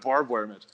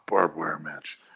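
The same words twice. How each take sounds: First: It is said in a proud, showy tone. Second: It is said in a flat, understated tone. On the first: The speaker is boasting about the scar. The speaker calls it wrong. "didn't sound proud of it. Like it wasn't like he was like" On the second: The speaker treats the scar as no big deal. The speaker calls it right. "He was like very like"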